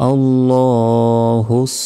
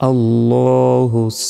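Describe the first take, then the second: The two takes are said the same way.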